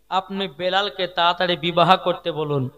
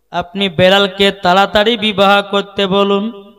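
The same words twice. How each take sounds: First: Said in the usual way. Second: Loud, insistent sermon delivery; projected preaching. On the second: Acted. Preacher repeating the plea to the Prophet, loud preaching. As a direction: send the plea out at full voice.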